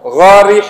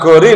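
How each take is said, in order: First: The word begins with a guttural gh sound. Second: The word begins with a plain g sound. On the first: The speaker calls it right. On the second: The speaker calls it wrong.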